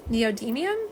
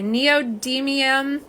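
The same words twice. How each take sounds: First: Neodymium run together quickly, rising at the end; neodymium said fast. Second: Neodymium drawn out carefully; neodymium said slowly. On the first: Host trying the word fast, unsure if she got it. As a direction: rattle off Neodymium in one go, asking. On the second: Host practicing the word for Esmeralda, careful and slow. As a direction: sound out neodymium with care. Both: Shown as a demonstration. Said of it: "but say it fast".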